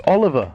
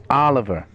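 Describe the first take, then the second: First: Oliver with a short rounded British O; correct pronunciation. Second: Oliver with an open American AH start; mock mispronunciation. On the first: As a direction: insist on the British Oliver, emphatic first syllable. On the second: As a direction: mimic the annoying AH-liver way of saying Oliver. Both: Shown as a demonstration. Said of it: "It's Oliver, not Oliver".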